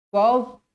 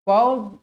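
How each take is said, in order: No difference in how they are said.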